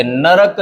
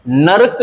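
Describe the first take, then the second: First: नरक slowly in two syllables, na-rak; correct pronunciation. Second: नरक as one syllable, nark; wrong pronunciation. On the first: Teacher correcting it, नरक said slowly as na-rak. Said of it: "सही है". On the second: Teacher showing the mistake, नरक said as nark. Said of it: "गलत है". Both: Shown as a demonstration.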